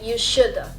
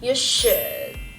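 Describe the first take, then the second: First: The final d is clearly released with air. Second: The final d is held without releasing air. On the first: The speaker calls it wrong. "a lot of people will say" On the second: The speaker calls it right. "but actually you will say"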